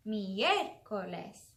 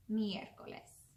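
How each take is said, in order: First: "Miércoles" very slow, leaning hard on the "é"; stress on E. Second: Said in the usual way. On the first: Shown as a demonstration. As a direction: punch and stretch the "é" in "Miércoles". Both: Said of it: "we put all of our sound on the E".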